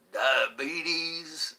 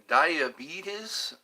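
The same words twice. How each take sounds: First: Drawn-out southern drawl; low southern accent. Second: Said in the usual way. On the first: Pretend. Viewer asked for it, low southern accent. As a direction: say it with a slow Southern twang. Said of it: "in low southern accent".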